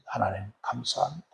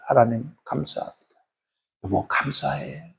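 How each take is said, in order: First: Very soft, tearful prayer; tearful thanks. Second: Quiet prayer. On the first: Wife thanking God for her husband, softly tearful. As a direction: breathe out thanks through mild tears. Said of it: "그때 눈물로 기도". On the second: Wife holding her sleeping husband's hand, quiet prayer. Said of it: "조용히 기도". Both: Retold or imitated.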